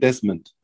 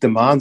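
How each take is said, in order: First: The name has an s sound before m. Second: The name has no s sound before m. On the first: This is the name as the TV commentator said it. "dann hat er halt da ein S irgendwie da reingequetscht" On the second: This is the name as the family says it. "aber nicht DeMahn"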